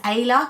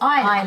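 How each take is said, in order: First: The first vowel sounds like 'ay'. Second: The first vowel sounds like 'eye'. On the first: This is how people in the UK would read the spelling. The speaker calls it wrong. "people will pronounce that here in the U K as Ayla" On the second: This is the name the speaker actually wanted. The speaker calls it right. "But I wanted Isla"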